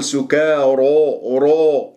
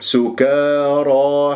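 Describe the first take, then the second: First: سكارى ending in a rounded ro; rounded-lip mistake. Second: سكارى chanted slowly, open dark را, lips unrounded; unrounded heavy ra. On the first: Teacher shows what not to say, rounded ra. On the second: Teacher shows the correct word, lips unrounded. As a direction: keep the end of سكارى open. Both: Shown as a demonstration. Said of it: "لا تكور الشفاه".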